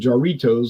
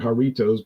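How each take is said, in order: First: It is said with an English pronunciation. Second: It is said with a Spanish pronunciation. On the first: "in English, I would say jarritos" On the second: "they pronounce it jarritos"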